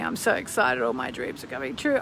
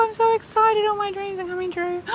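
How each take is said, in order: First: Said in the usual way. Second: High, squealing delight; much higher, gushing joy; giddy excited affirmation. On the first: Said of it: "Say it with me". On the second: Pretend. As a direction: squeal it like a dream come true. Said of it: "do a little affirmation".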